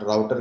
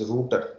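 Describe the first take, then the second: First: The first syllable does not sound like 'root'. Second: The first syllable sounds like 'root'. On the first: The speaker calls it wrong. "but it is not router" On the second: The speaker calls it right. "It is router. Root"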